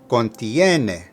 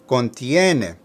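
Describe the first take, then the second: Both takes have the same delivery.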